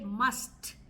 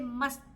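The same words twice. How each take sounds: First: The final T is said hard, English style. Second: The final T is said soft, not hard. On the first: The speaker calls it wrong. "you don't use the hard T. You don't say must" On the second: The speaker calls it right. "You say must"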